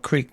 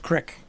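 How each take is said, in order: First: The vowel is long, as in 'creek'. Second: The vowel is short, as in 'crick'.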